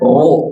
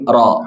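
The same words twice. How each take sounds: First: The vowel is said with rounded lips. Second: The vowel is said with the mouth wide open. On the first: The speaker calls it wrong. "bukan ro" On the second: The speaker calls it right. "tapi ro. Ro, mangap"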